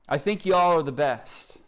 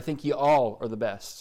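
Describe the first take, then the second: First: It is said in an Oklahoma accent. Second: It is said in a neutral accent.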